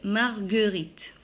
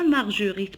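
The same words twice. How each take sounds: First: The G is hard, as in go. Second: The G is soft, like a J sound. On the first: The speaker calls it right. "Donc je prononce le G, G" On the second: The speaker calls it wrong. "On ne dit pas Marguerite"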